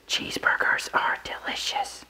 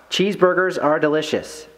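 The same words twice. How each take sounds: First: Slow whisper, very soft. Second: Said in the usual way. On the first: Acted. Player passing the phrase to the next person in telephone, whispered. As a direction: whisper it slowly into someone's ear. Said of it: "they'd whisper into the person's ear". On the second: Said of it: "if I said just out loud".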